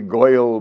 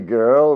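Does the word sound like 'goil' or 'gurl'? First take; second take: goil; gurl. First: The vowel sounds like 'oy', as in 'goil'. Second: The vowel sounds like 'er', as in 'gurl'. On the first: "we don't say goyle" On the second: "We say girl"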